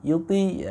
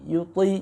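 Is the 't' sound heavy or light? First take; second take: light; heavy. First: The t sound is light and thin. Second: The t sound is heavy and thick. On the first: The speaker calls it wrong. "jadi bukan yuti yuti ya, itu tidak terbaca isti'la" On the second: The speaker calls it right. "tetap huruf ta-nya walaupun berbaris kasroh dikasih tebal haknya"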